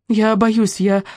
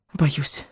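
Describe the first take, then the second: First: Higher, pleading "боюсь"; first "боюсь" lifted up and urgent; frightened plea. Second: Much softer, sinking "боюсь"; second "боюсь" dropped almost to nothing; broken, fading fear. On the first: (испуганно, на высокой ноте) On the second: (тихо, угасая) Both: A narrator's reading. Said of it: "дрогнувшим голосом".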